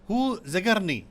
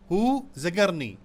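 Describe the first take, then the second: Both takes have the same delivery.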